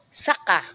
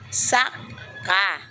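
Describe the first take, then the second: First: The stress is on the second syllable. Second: The stress is on the first syllable. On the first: It means also or next. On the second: It means farmed land.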